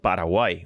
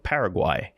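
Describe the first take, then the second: First: The word is said with a Spanish pronunciation. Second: The word is said with an English pronunciation.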